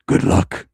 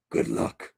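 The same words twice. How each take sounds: First: Very low, loud movie-star voice; Liam Neeson impression. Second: Whispered, soft movie-star menace; Liam Neeson impression. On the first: Wishing he sounded like a famous actor, deep loud impression. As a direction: drop deep and push the threat out. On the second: Wishing he sounded like a famous actor, whispered impression. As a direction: whisper it like an action-film threat. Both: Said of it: "sound like Liam Neeson".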